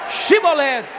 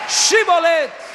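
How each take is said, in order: The two takes are said the same way.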